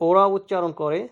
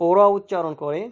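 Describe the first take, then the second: The two takes are said the same way.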